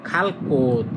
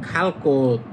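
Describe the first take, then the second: No difference in how they are said.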